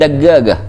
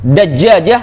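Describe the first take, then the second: First: The middle consonants are hard G sounds. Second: The middle consonants are soft J sounds. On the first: This is the Egyptian everyday form. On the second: This is the standard form.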